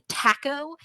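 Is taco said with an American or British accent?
British. The word is said in a British accent. The speaker calls it wrong. "when they say taco"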